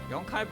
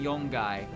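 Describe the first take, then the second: First: The second syllable begins with a k sound. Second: The second syllable begins with a g sound. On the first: The speaker calls it right. "Yonkai breaks the rules of Ka becoming Ga" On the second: The speaker calls it wrong. "Yonkai should become Yongai, but it doesn't"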